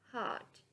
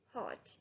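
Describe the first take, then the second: First: It is said with an American accent. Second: It is said with a British accent. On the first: "American English" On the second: "British English"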